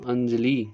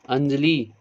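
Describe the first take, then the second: No difference in how they are said.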